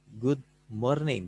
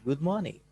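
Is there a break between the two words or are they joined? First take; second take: break; joined. First: The two words are said separately. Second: The two words are run together. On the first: "bisa seperti itu dibacanya" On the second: "langsung disatuin"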